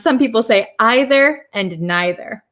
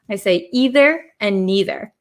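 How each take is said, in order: First: The words use the other, non-Wisconsin pronunciation. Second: The words use the speaker's own Wisconsin pronunciation. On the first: "other people in America, and I think in uh, England" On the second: "my pronunciation as an American from Wisconsin"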